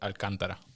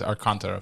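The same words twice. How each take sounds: First: The name is said with a Dominican Spanish pronunciation. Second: The name is said with an American English pronunciation. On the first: "For Dominicans" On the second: "For Americans"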